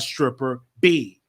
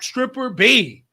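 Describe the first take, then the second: First: It is said at a plain, ordinary volume. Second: It is said loudly with great force. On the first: The speaker calls it wrong. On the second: The speaker calls it right.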